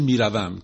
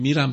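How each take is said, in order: First: The verb is said in its full form. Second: The verb is said in a shortened form. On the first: This is the full written form of the verb. "مثل میروم" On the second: This is the everyday spoken form. "که ما میگیم میرم تو فارسی"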